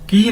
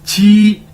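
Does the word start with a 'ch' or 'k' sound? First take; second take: k; ch. First: It starts with a hard 'k' sound. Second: It starts with an aspirated 'ch' sound. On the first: The speaker calls it wrong. "की नहीं" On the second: The speaker calls it right. "क्यू भी छह के छह की तरह प्रोनाउंस किया जाएगा।"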